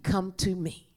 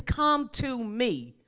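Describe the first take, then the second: First: Said in the usual way. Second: Slow, tender invitation; Jesus inviting the weary, slowly. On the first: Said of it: "Somebody repeat". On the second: Acted. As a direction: draw them in slowly. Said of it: "Jesus says".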